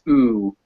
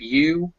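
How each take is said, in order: First: It begins directly with the 'oo' vowel. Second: It begins with a clear 'y' sound. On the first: "you don't ever hear that y, so it just becomes ooh" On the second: "Instead of you"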